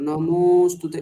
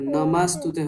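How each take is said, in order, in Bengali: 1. দ্বিতীয় স্বরবর্ণটি একটি স্পষ্ট 'o'-এর মতো শোনায়। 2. দ্বিতীয় স্বরবর্ণটি একটি ছোট 'a'-এর মতো শোনায়। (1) "ওকার শু- ঠিকঠাক শোনা যাবে" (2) "নমাস্তুতে হয়ে গেল"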